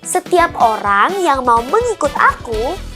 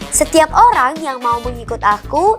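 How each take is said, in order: First: The line is read at a slower pace. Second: The line is read at a quicker pace.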